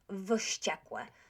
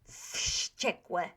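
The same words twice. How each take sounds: First: The word begins with a V sound. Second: The word begins with an F sound. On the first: The speaker calls it wrong. "not wściekłe" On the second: The speaker calls it right. "But wściekłe"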